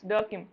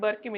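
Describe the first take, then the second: First: The name begins with a D sound. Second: The name begins with a B sound. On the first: The speaker calls it right. "it's Durkheim" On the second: The speaker calls it wrong. "it's not Burkim"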